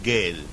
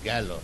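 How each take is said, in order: First: The word ends with an 'e' vowel. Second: The word ends with an 'o' vowel. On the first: The speaker calls it wrong. "but he said gale" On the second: The speaker calls it right. "the pronunciation is gallo"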